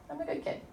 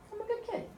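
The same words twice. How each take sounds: First: Put-on lifted soft voice on good kid; softer repeat, still lifted; high soft affirmation. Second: Put-on gently rising, reassuring child's tone; high soft affirmation. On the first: Mother tapping for her daughter, a gentler high repeat. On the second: Mother tapping for her dizzy daughter, high and soft. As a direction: voice lifts high and soft on good kid. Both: Shown as a demonstration. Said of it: "So I said".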